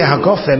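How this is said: The consonant after 'ha' is a hard G.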